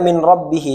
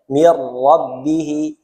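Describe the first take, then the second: First: The n is pronounced separately before the r. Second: The n merges fully into a doubled r. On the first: This is how it is written. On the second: This is how it is read.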